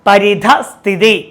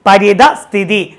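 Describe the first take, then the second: Both takes have the same delivery.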